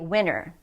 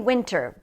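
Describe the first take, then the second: First: The T sound is dropped after the N. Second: The T sound is clearly pronounced. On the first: "when we're speaking quickly, it often happens that we'll say winter" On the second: "a lot of people say winter"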